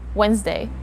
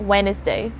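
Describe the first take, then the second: First: The word is said in two syllables. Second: The word is said in three syllables. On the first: The speaker calls it right. "shorten this word into just two syllables" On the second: The speaker calls it wrong. "It's not Wednesday"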